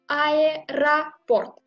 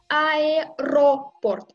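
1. La voyelle après 'aer' est réduite à 'a'. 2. La voyelle après 'aer' est un 'o' plein. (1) "je prononce aéroport" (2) "je prononce pas aéroport"

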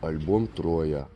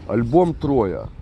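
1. Фраза произнесена мягко, нежно. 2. Фраза произнесена грубо, прямолинейно. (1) "Вот так надо. Надо нежно" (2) "Просто вы грубо, наверное, говорите"

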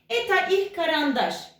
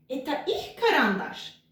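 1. Düz anlatım tonlamasıyla söyleniyor. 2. Soru tonlamasıyla söyleniyor.

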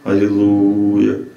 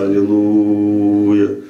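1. Голос резонирует низко, в груди. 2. Голос резонирует низко, в груди.

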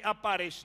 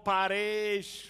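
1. Ударение в слове обычное. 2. Ударение перенесено на другой слог. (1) "самый обыкновенный опарыш" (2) "поменяете ударение"

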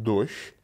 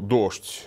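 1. Произносится старомосковским способом. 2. Произносится обычным современным способом. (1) "они будут говорить «дождь»" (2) "Вместо «дождь»"

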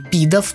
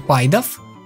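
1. Первая гласная звучит как 'ee'. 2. Первая гласная звучит как 'eye'. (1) "или Пидов, правильно, вообще-то" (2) "Почему я его называю Пайдов, я не знаю, привык так"

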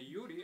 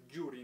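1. Имя начинается с мягкого звука «й». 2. Имя начинается с сильного звука «дж». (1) "не «юрий»" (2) "Хотя «дж» это гораздо сильнее, как «джури»"

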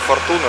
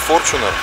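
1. Ударение падает на последующий слог. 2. Ударение падает на первый слог. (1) "не Fortuner" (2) "ударение на первую букву ... а именно Fortuner"

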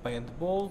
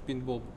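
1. Слово произносится манерно, с твёрдым гласным «э». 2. Слово произносится обычно, просто. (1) "ты как богатый говоришь слово пейнтбол" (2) "если бы я сказал, я говорю"

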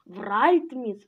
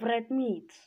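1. Ударение падает на первую часть. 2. Ударение падает на вторую часть. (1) "ударение на первое" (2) "или на второе"

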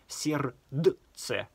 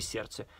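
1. Каждый написанный согласный произносится. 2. Одна написанная согласная буква остаётся непроизнесённой.

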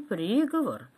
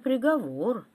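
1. Ударение на первом слоге. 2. Ударение на втором слоге. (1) "Был оглашен не приговор" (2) "судебный приговор"

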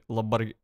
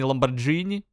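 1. Средняя согласная — твёрдый звук G. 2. Средняя согласная — мягкий звук J. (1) "в смысле Ламборгини?" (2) "А разве не Ламборджини?"

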